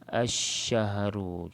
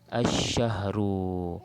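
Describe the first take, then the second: First: The L merges into a doubled sh sound. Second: The L merges into a doubled sh sound.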